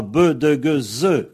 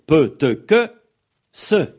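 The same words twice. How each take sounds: First: "be, de, ge, ze" with voiced consonants; buzzed, voiced "be, de, ge, ze"; soft consonant demo. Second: "pe, te, que, se" punched louder, one at a time; voiceless "pe, te, que, se", stressed; hard consonant demo. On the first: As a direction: sound out "be, de, ge, ze" as a voiced series. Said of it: "en liaison, on aura". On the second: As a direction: fire off "pe, te, que, se" as separate hard sounds. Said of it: "c'est la consonne dure". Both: Shown as a demonstration.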